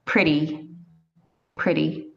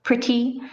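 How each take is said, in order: First: "pretty" with the T softened to a quick D; unpronounced T. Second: "pretty" with a crisp, fully sounded T, pitched high; over-careful, higher "pretty" with a hard T; pronounced T. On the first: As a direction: say "pretty" like "priddy", no crisp T. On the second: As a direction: hit a true T in the middle of "pretty". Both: Shown as a demonstration. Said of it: "You don't pronounce the T".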